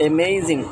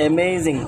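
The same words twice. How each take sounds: No difference in how they are said.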